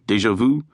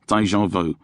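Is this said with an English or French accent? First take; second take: French; English. First: It is pronounced with a French accent. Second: It is pronounced with an English accent. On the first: "you don't say them with a French accent" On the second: "you say them with the English accent"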